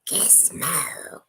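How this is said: It is said in a put-on gremlin voice.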